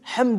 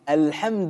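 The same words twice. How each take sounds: First: The word starts without the article al. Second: The word starts with the article al. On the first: The speaker calls it wrong. "Люди читают" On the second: The speaker calls it right. "правильно читать с артиклем «аль»"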